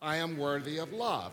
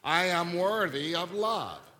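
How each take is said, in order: First: It is said mildly, without much conviction. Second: It is said forcefully, with strong conviction.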